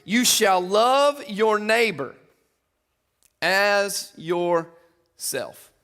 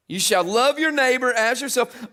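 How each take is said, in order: First: Very slow, every word drawn out; slow emphatic reading. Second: Said in the usual way. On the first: Real, not acted. Preacher reading the second commandment to the church, very slow. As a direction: let each word land slowly and heavily.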